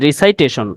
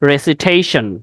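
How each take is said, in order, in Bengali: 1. দ্বিতীয় সিলেবলটি 'sigh' এর মতো শোনায়। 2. দ্বিতীয় সিলেবলটি 'sih' এর মতো শোনায়। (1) "উচ্চারণটা রিসাইটেশন হবে না" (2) "উচ্চারণটা হবে রেসিটেশন"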